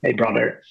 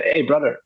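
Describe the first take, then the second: First: Said in the usual way. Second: Mild mock call-out, pitched up a little; retold shout. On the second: Photographer hailing a boy to turn around, retold as a mild shout. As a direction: call out lightly, as if hailing someone. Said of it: "just shouted".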